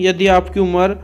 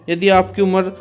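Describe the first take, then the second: No difference in how they are said.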